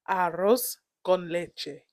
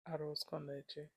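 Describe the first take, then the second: First: The R in arroz is strongly rolled. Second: The R in arroz is barely rolled. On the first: The speaker calls it right. "There you go" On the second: The speaker calls it wrong. "Roll the R better"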